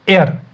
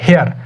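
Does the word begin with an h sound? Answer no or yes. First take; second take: no; yes. First: The word begins with a vowel sound. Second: The word begins with an h sound. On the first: The speaker calls it right. "लेकिन इसकी pronunciation जो है वो है एयर" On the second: The speaker calls it wrong. "अब हमें लगेगा ये हेयर है"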